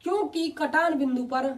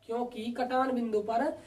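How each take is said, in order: First: Slow dictation. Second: "क्योंकि कटान बिंदु पर" said slowly and softly; slow, quiet dictation. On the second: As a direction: dictate slowly so students can write. (धीमे और धीमी आवाज़ में लिखवाना) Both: Shown as a demonstration. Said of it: "देखो मैं बोल रहा हूँ".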